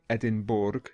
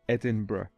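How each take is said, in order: First: The word is said the commonly heard way. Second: The word is said the local, recommended way. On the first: The speaker calls it wrong. "many people pronounce it Edinburgh" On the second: The speaker calls it right. "the correct pronunciation is Edinburgh"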